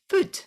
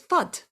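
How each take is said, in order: First: The vowel is a long oo sound. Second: The vowel is a short uh sound. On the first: The speaker calls it right. "how that is supposed to be pronounced is food" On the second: The speaker calls it wrong. "how that pronounces in my head every time I look at it is fud"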